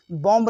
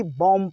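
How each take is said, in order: First: "बॉम्ब" with final B released after M; B sounded. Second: "बॉम्ब" ending on M, no B; silent B. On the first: Teacher rejects this reading, final B sounded in "बॉम्ब". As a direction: say "बॉम्ब", wrongly voicing the last B. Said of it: "बॉम्ब नहीं होता". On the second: Teacher gives the correct reading, "बॉम्ब" ending on M. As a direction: say "बॉम्ब" as "bom", last B silent. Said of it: "बल्कि बॉम्ब पढ़ा जाता है". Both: Shown as a demonstration.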